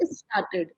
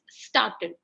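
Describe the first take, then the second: First: An extra vowel sound comes before the s. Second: The word begins directly with the s sound. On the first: The speaker calls it wrong. "You're adding a I before the S" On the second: The speaker calls it right. "you don't have to add the I before the S"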